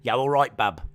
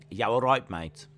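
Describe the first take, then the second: First: Lightly done Black Country accent. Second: A hint of a Dudley Black Country accent. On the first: Streamer demoing how Black Country folk talk, lightly accented. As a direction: say it the Dudley way, lightly. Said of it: "Black country. Talk a little bit like this". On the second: Streamer showing chat a light Dudley accent greeting. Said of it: "put on a Dudley accent". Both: Shown as a demonstration.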